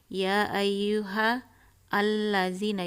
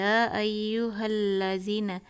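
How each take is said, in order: First: The alif lam is sounded separately. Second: The alif lam merges into the next letter. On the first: The speaker calls it wrong. "tidak mengatakan" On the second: The speaker calls it right. "tapi ya ayyuhal lazina"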